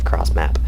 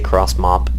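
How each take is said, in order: First: The vowel of the second word sounds like 'map'. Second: The vowel of the second word sounds like 'mop'. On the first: "instead of cross map" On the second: "I say cross mop instead of cross map"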